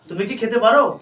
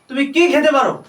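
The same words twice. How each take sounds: First: The word কি carries no stress. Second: The word কি carries strong stress. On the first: It asks whether the person is able to eat. "যখন কিতে জোর পড়বে না তখন মোডাল দিয়ে শুরু হবে" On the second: It asks which things the person can eat. "যখন কিটাতে জোর পড়বে তখন কি আসবে, হোয়াট আসবে"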